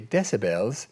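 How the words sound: The word is said in a British accent.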